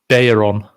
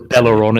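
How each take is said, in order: First: The name is said without an L sound. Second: The name is said with an L sound. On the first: The speaker calls it right. "So you don't pronounce the L" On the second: The speaker calls it wrong. "So it's not Bella, Bellaron"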